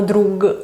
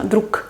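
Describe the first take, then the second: First: "drug" with a released voiced g; voiced final consonant. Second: "druk" ending in voiceless k; final devoicing. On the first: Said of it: "no drug". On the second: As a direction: close "druk" on a hard unvoiced k. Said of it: "La G pasa a K". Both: Shown as a demonstration.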